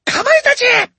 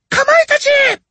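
First: Very high, loud summons; commanding cry. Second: Even higher, louder summons; impatient call. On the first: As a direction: call the beasts to attack. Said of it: "she cried". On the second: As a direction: call again, losing patience. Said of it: "she called again". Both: A narrator's reading.

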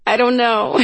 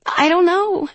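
First: High, laughing through the words; helpless answer breaking into a laugh; cracking up. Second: High, small admission; laughter gone, helplessly unsure; sobering up. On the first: Freya answers her sister about her lost voice, cracking up. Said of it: "cracking up". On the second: Freya admits she has no plan, sobering up a little. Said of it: "sobering up a little". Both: A narrator's reading.

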